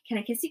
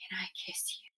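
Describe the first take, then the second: First: It sounds giggly and boyish. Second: It sounds romantic and sincere.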